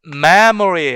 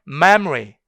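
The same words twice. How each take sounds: First: "memory" in three full syllables, mem-uh-ree; schwa kept. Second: "memory" cut to two syllables, mem-ree; schwa deleted. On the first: Teacher shows students the full form, "memory" with its middle vowel. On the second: Teacher shows students the deletion, "memory" as mem-ree without schwa. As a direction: drop the middle vowel of "memory", m straight into r. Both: Shown as a demonstration. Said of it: "슈아 사운드로 완전 삭제해버리는".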